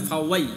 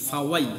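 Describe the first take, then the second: Both takes have the same delivery.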